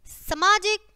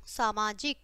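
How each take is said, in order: First: सामाजिक said "samaajik", first vowel short; wrong short vowel. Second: सामाजिक said "saamaajik", long first "aa"; lower, softer correction, सामाजिक opening on "saa"; correct long vowel. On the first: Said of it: "पहले हमारी अशुद्ध शब्द है". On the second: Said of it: "और फिर शुद्ध है". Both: Shown as a demonstration.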